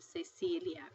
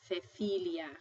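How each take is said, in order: First: The first consonant sounds like English s. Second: The first consonant sounds like English th. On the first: This is how it is said outside Spain. "instead of Cecilia" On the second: This is how it is said in Spain. "if you were in Spain, you pronounce this as Cecilia"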